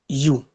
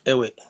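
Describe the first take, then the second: First: The word sounds like 'you', one syllable. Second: The word sounds like 'away', two syllables. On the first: The speaker calls it right. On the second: The speaker calls it wrong. "but not away"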